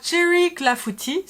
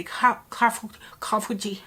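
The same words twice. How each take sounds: First: Said in the usual way. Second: Clafoutis fumbled as "caf-", restarted, L lost; non-French clafoutis. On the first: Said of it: "So here we have". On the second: Retold or imitated. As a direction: imitate his stumbling "cafouti" for clafoutis. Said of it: "Jean is not a real French people".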